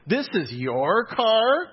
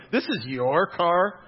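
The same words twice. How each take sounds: First: Slow, high, disbelieving "This is your car?" with a long rise on "car"; incredulous question. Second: "This" punched, then slow with a rise to "car"; stress on THIS. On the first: Professor sizing up the student's car, slow incredulous question. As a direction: imitate her drawn-out disbelief. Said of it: "She said it just like that". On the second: Preacher re-showing the professor's line, stress on "This". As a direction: lean hard on the word "This". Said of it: "Emphasis on the". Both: Retold or imitated.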